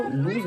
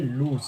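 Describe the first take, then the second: First: "लूज" ending in a z sound; wrong pronunciation. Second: "लूज" as loos; correct pronunciation. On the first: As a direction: say "लूज" as looz. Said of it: "ये wrong pronunciation". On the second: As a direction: say "लूज" ending in a hissed s. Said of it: "इसकी right pronunciation". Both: Shown as a demonstration.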